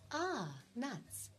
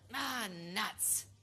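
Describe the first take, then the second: First: It sounds pleased and delighted. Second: It sounds annoyed and disappointed.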